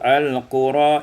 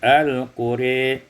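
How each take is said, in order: First: The final vowel is a plain open a. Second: The final vowel leans toward an e sound.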